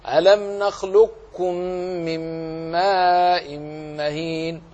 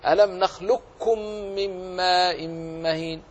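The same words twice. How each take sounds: First: نخلقكم with heavy raised-tongue ق closure released as ك; slow recitation, keep ق weight in نخلقكم without bouncing it; partial assimilation. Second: نخلقكم as nakhlukkum, only a doubled light ك; higher-pitched recitation, ق of نخلقكم wholly gone into ك; full assimilation. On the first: Teacher reciting the second option, نخلقكم with heaviness kept before ك. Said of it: "لكن أبقي صفة الاستعلاء، فاقرأ هكذا". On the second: Teacher reciting the first option, نخلقكم with pure doubled ك. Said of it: "فلا يبقى إلا كاف مشدد". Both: Shown as a demonstration.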